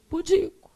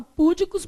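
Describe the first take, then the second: First: "Pudico" stressed on the middle syllable, pu-DI-co; correct stress shown. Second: "púdicos" stressed on the first syllable, PÚ-dicos; wrong stress shown. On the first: Teacher giving the class the right form, "Pudico" stressed on DI. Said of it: "mas o certo é o quê?". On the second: Teacher showing students the common mistake, "púdicos" stressed on PÚ. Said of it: "a gente, às vezes, fala púdicos". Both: Shown as a demonstration.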